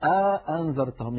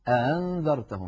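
First: A long a-vowel separates the two glottal stops. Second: The second glottal stop is softened, not fully closed. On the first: "كان يدخل بين الهمزتين ألفا" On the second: "كان يسهل الهمزة الثانية"

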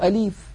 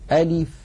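First: The vowel after the L is stretched long. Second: The vowel after the L is short. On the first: The speaker calls it wrong. "يمطون كسرة اللام قليلا" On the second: The speaker calls it right. "فلا مد في كلمة ألف"

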